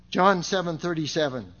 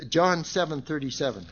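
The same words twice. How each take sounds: The two takes are said the same way.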